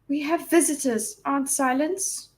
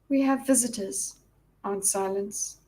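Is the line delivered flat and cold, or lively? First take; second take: lively; flat. First: The line is spoken with lively, varied expression. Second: The line is spoken in a cold monotone.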